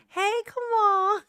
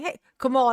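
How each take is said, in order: First: High, slow, drawn-out greeting; Alicia's funny voice. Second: Said in the usual way. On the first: Retold or imitated. Imitating Alicia walking up to Kamal, funny high voice. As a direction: stretch it out in a put-on high voice. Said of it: "she got that funny voice". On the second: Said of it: "that was it".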